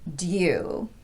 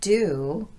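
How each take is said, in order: First: It is said with a y glide before oo. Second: It is said with a plain oo, no y. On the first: The speaker calls it wrong. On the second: The speaker calls it right. "Americans pronounce this as"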